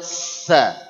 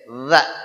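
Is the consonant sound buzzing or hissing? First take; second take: hissing; buzzing. First: The consonant is voiceless with a plain hiss. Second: The consonant is voiced with a vibrating buzz. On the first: The speaker calls it wrong. "tidak boleh sa, nggak boleh" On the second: The speaker calls it right. "Mesti getek. Za"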